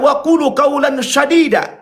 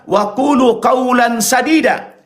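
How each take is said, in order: First: The s in sadida is thicker, nearer sh. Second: The s in sadida is a thin, plain s. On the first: Speak words that are fierce and harsh. The speaker calls it wrong. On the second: Speak words that are true. The speaker calls it right.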